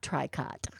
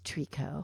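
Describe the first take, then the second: First: The final t sound is pronounced. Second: The final t sound is silent. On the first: The speaker calls it wrong. "is not tricot" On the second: The speaker calls it right. "It's Trico"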